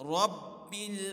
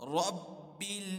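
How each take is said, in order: No difference in how they are said.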